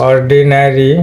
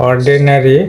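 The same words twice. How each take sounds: No difference in how they are said.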